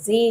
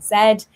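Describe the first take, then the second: First: The letter is said the American way, as zee. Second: The letter is said the British way, as zed.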